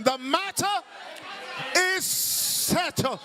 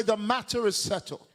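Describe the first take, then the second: First: High, emphatic African-style declaration; African preacher. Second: Said in the usual way. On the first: Shown as a demonstration. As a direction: proclaim it like an African, drawing out the ending. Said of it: "Say it like an African". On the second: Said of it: "not with your European voice".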